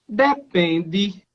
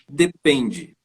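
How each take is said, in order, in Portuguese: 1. Começa alto, desce e depois sobe um pouco. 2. Começa baixo, sobe na sílaba tônica e depois desce. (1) "o pessoal do Nordeste vai falar assim" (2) "começo na região mais grave, subo para dar"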